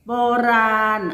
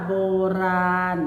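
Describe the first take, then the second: First: Said in the usual way. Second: โบราณ with a clear pause between โบ and ราณ; syllable-by-syllable reading. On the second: Shown as a demonstration. Teacher showing pupils how it reads, syllable by syllable. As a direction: sound out โบราณ in two separate syllables. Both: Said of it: "อ่านว่า".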